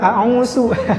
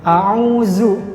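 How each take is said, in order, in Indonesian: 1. Konsonan tengahnya adalah s. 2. Konsonan tengahnya adalah z biasa. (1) "diganti dengan sin juga" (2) "diganti huruf za biasanya"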